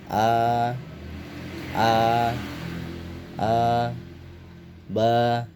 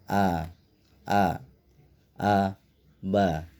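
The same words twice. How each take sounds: First: Each syllable is drawn out long. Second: Each syllable is said short and quick. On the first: The speaker calls it wrong. "bacanya dipanjangkan" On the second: The speaker calls it right. "harus dibaca pendek saja"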